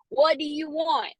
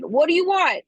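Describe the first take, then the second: First: First try at Noah. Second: Noah's plea, louder and higher; hammed-up movie-star plea; Ryan Gosling impression. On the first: Retold or imitated. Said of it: "I'm gonna pull a Noah on y'all". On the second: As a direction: demand it like the movie hero in the rain. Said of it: "My best Ryan Gosling".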